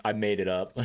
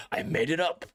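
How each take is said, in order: First: Said in the usual way. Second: Laughing confession. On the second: Real, not acted. Repeats admission laughing.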